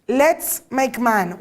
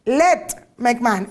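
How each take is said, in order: First: "Let's make man" read very slowly with the weight on "Let's"; slow quoted verse. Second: "Let make man" read very slowly with the weight on "Let"; slow corrected verse. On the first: Quoting the verse to the audience, slow and weighty on "Let's". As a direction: lean on the plural "Let's" and stretch each word. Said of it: "What's wrong with this quote?". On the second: Showing the audience the singular wording, slow stress on "Let". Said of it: "It should have said". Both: Shown as a demonstration.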